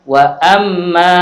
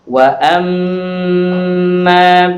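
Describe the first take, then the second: First: The doubled m is clipped short without nasal hum. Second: The doubled m is held with a long nasal hum. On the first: The speaker calls it wrong. "tidak boleh dibaca wa amma" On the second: The speaker calls it right. "harus digunnahkan"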